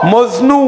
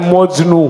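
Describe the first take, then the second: First: The word is said with an 's' sound. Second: The word is said with a 'ch' sound. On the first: The speaker calls it right. "শব্দটা মজনু, মজনু স" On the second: The speaker calls it wrong. "স উচ্চারণ না করে আমি উচ্চারণ করছি চ"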